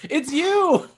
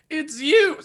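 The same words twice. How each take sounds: First: It is said in the speaker's natural voice. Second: It is said in a put-on character voice.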